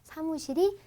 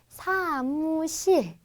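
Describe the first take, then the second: First: The word is said with ordinary flat pitch. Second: The word is said with falling-level-falling tones.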